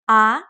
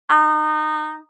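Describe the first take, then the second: First: The pitch starts mid and rises. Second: The pitch stays high and level. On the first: "It starts in the middle, semi-high, and goes up" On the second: "It starts high and maintains the high pitch the whole time"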